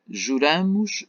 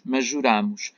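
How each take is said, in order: First: "Juramos" with an open stressed á, ju-RÁ-mos; past tense juramos. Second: "juramos" with a closed stressed â, ju-RÂ-mos; present tense juramos. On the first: Teacher giving the past tense form, open vowel. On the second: Teacher giving the present tense form, closed vowel. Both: Shown as a demonstration. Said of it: "são dois verbos".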